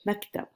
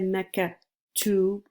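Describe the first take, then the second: First: The k is followed directly by t, no vowel. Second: A u vowel is inserted after the k. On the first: The speaker calls it right. "the kaf here does not have any short vowel" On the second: The speaker calls it wrong. "I'm not going to say makatub"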